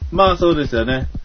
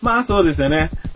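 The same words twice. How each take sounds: First: It is said with the lowest pitch and energy. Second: It is said with somewhat raised pitch and energy. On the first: "音を上げていくだけ" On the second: "音を上げていくだけ"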